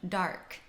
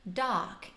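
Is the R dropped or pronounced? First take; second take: pronounced; dropped. First: The R is clearly pronounced. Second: The R is dropped. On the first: "O P includes those hard rhotic R's" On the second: "The R's disappear"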